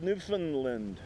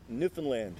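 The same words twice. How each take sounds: First: The last two syllables are made to rhyme. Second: The word is said in the local way. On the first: It is a compromise between mainland and local speech. The speaker calls it wrong. "The attempt to rhyme the last two syllables always seemed bizarre to me" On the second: It is how those who know better say it. The speaker calls it right. "Just call it Newfoundland, if you please"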